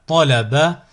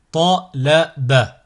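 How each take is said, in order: First: Syllables joined as one word. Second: Slow, each syllable drawn out separately; split into syllables. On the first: Teacher models a word for learners to repeat, joined in one go. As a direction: run the syllables together without pauses. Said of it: "le mot attaché". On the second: Teacher models a word for learners to repeat, split into syllables. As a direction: cut the word up, pausing between syllables. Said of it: "décomposer le mot". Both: Shown as a demonstration.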